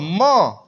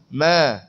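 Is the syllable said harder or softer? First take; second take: harder; softer. First: The syllable is said with a harder sound. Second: The syllable is said with a softer sound. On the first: The speaker calls it wrong. "bukan ma" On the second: The speaker calls it right. "dia lembut sikit"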